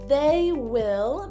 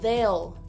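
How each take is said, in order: First: Both words are said in full. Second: The two words merge into one syllable.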